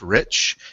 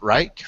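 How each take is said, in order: First: The vowel sounds like the 'i' in 'itch'. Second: The vowel sounds like the word 'eye'. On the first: The speaker calls it right. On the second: The speaker calls it wrong. "not Reich"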